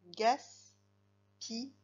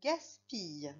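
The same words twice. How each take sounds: First: "Gaspille" very slow, broken into gas, pi, ye; syllable by syllable. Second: Said in the usual way. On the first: Shown as a demonstration. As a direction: dictate "Gaspille" with a pause after each syllable. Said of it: "C'est en fait deux syllabes". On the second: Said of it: "On continue avec des mots".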